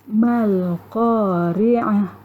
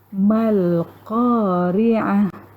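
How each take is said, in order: First: The word ends on a soft h-sound. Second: The same.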